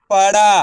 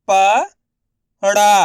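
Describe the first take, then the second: First: पड़ा joined with no gap, ending on long आ; blended word. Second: पड़ा split as प, long pause, ड़ा; syllable by syllable. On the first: Teacher modelling the whole word for learners, blended. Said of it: "उसी तरीके से आपको भी". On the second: Teacher sounding out letters for learners, syllable by syllable. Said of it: "एक अक्षर का उच्चारण करके". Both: Shown as a demonstration.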